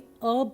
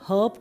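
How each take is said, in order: First: The word starts without an h sound. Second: The word starts with an h sound. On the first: "अर्ब सुनाया होगा आपने कभी कभी, क्योंकि कई बार किसी किसी भाषा में एच को साइलेंट बोला जाता है" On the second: "हर्ब को भी"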